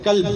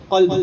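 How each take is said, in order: First: قلب mispronounced with a thin, plain k; kaf error. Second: قلب with a heavy uvular q; thick qaf. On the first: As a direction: start قلب with an ordinary k instead of q. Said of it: "قاف مبتلے کاف سے پڑھ دے". (کاف سے قلب کا غلط تلفظ) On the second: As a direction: start قلب far back in the throat with a full q. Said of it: "قلب قاف سے". (موٹے قاف سے قلب) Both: Shown as a demonstration.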